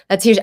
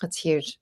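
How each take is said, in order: First: "huge" stressed and louder; emphatic. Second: Soft, falling "That's huge"; quiet. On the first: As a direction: punch "huge" with conviction. Host repeats the reaction with emphasis. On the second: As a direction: say "huge" softly, almost to yourself. Host reacting, then repeats louder. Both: Real, not acted.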